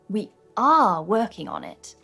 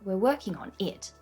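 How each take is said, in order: First: The stress falls on the word are. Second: The stress falls on the word we're. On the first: The work is in fact happening. The speaker calls it right. "What I would have said is" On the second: Contrasts who is doing the work. The speaker calls it wrong. "he said"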